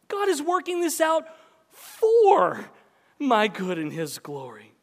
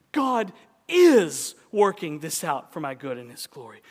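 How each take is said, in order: First: For shouted very high and loud; the word for cried out high; stress on FOR. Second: Said in the usual way. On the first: Shown as a demonstration. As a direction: belt out the word for, then drop back down. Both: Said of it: "emphasize different words in that sentence".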